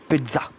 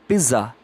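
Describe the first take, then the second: First: The middle consonant is a ts sound. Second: The middle consonant has no ts sound. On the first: The speaker calls it right. "P E E T Z U H" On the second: The speaker calls it wrong. "it is not pizza"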